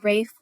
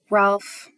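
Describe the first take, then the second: First: The name is said without an L sound. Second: The name is said with an L sound. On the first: The speaker calls it right. "Usually in Britain it's Rafe" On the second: The speaker calls it wrong. "That's probably not the right pronunciation"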